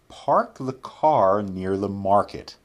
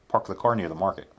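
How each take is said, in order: First: The sentence is spoken at a slow pace. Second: The sentence is spoken at a quick pace. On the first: "first we'll say them slowly" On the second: "then we'll say them quickly"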